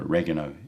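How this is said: It is said with an American pronunciation.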